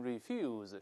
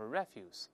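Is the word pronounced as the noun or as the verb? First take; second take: verb; noun. First: It is pronounced the way the verb is. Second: It is pronounced the way the noun is. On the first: It means to decline something. "这个词如果动词呢，读成refuse 是拒绝的意思" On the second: It means garbage. "但名词都是refuse"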